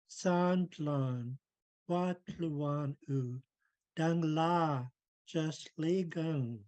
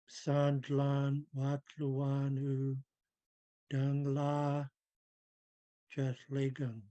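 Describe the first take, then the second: First: It is clear, energetic and full of feeling. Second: It is low, flat, mumbled and without feeling. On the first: The speaker means the words. The speaker calls it right. "pouring my spirit into the language" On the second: The words feel empty. The speaker calls it wrong. "I went low tone. Um, I s- spoke without any um, feeling"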